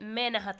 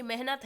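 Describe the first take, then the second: First: मेनहत with the middle sounds swapped; child's mispronunciation. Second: Said in the usual way. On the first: Shown as a demonstration. Teacher quoting a child's error, मेनहत with h displaced. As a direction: say मेनहत as "me-na-hat", h moved later. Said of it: "मेहनत को बच्चा कहेगा". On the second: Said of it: "बच्चा कहेगा".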